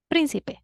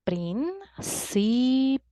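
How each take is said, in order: First: Said in the usual way. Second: "Príncipe" in three separate pieces, prín-ci-pe; split into syllables. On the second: Shown as a demonstration. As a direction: pause between each syllable of "Príncipe". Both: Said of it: "We divide the word into syllables".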